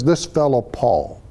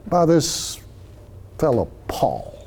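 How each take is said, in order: First: Said in the usual way. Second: A sneer at this fellow Paul; dismissive. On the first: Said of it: "The phrasing and the way that that's worded". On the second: Shown as a demonstration. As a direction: brush him off as a nobody. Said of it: "It's dismissive in tone".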